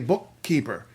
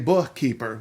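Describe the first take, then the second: First: The middle k sound is held long. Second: The middle k sound is short. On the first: The speaker calls it right. "We say bookkeeper. Hold it twice as long" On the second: The speaker calls it wrong. "we don't say bookkeeper"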